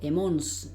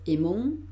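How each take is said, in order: First: The final S sound is pronounced. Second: The final S sound is silent. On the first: The speaker calls it wrong. "no digo emons" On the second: The speaker calls it right. "esta S no la pronuncio, digo emon"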